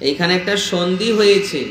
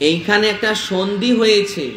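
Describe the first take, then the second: The two takes are said the same way.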